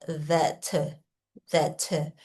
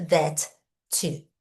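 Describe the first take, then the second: First: "that" flowing into a short, weak "tuh"; low, soft "that" with a schwa tacked on; linked reduced "to". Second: "that" cut off, then a separate full "to"; separated full "to". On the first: Teacher showing the junction, "that" linked to weak "to". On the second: Teacher showing what to avoid, "that" and "to" split apart. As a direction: say "to" apart as a clear "tchoo". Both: Shown as a demonstration. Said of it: "não é that, to".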